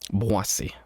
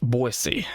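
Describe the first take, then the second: First: The name is given a non-English pronunciation. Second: The name is given an English pronunciation.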